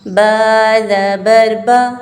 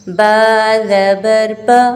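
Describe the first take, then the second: The two takes are said the same way.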